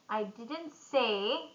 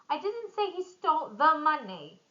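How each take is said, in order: First: The stress falls on the word say. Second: The stress falls on the word money. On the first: It was implied, not said. "I implied it" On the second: Something else was taken. "Maybe he stole something else"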